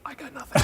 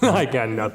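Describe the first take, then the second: First: It is said at a normal, quiet volume. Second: It is said loudly.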